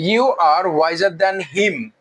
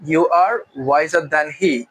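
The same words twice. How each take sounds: First: Very slow, him form; slow spoken variant. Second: Very slow, stress on are; slow formal variant. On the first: Teacher contrasting the informal him version, slowly. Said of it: "আমরা him দিলেও কোনো সমস্যা নাই". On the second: Teacher giving the formal he version, slowly. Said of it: "তুমি তার চেয়ে জ্ঞানী". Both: Shown as a demonstration.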